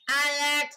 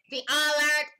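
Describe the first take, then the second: First: Mock alarm call; imitating alert. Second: Imitating alert. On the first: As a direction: echo the alarm lightly. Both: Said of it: "The alert, alert".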